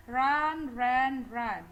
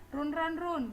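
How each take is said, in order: First: Loud, distinct "run, ran, run", short uh in "run"; correct pronunciation. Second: Higher-pitched "Run, run, run" as roon, ran, roon; wrong pronunciation. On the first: Teacher modelling how to memorise verbs, "run, ran, run" carefully pronounced. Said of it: "Jadi ngapalnya itu". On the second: Teacher showing what wrongly memorised verbs sound like, "Run" as "roon". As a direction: recite it wrongly, "Run" with a long oo. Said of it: "ya pronounce yang salah". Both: Shown as a demonstration.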